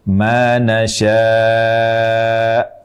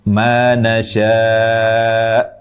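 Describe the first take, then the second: First: The long vowel is held for five counts. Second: The long vowel is held for four counts. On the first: "lima harokat" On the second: "empat harokat"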